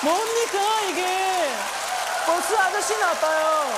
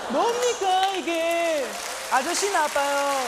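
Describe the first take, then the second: First: Very high, loud put-on indignation; mock outraged shout. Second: High, loud indignant catchphrase; mock outraged shout. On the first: Worker complaining about the bus driver, mock fury. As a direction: wail the complaint over the top. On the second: Worker yelling at the corner-store man, mock fury. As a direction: yell it like a cheated worker.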